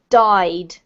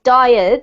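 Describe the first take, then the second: First: The word is said as one syllable. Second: The word is stretched into two syllables. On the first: The speaker calls it right. "This word is one syllable" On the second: The speaker calls it wrong. "it's not died"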